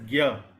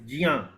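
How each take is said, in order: First: The syllable begins with a hard g sound. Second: The syllable begins with a j sound. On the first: This is the common North Indian pronunciation. The speaker calls it wrong. "typically in North India we pronounce it as Gya" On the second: This is the original pronunciation of the syllable. The speaker calls it right. "it is Jia. It is uh, the, the correct pronunciation is Jia"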